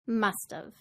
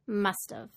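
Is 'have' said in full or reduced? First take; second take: reduced; reduced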